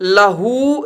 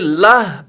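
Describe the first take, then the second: First: The word ends with a final vowel sound. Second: The word ends on a consonant, no vowel. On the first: The speaker calls it wrong. "लहू नहीं" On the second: The speaker calls it right. "बल्कि लह पढ़ेंगे"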